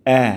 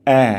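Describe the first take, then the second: The two takes are said the same way.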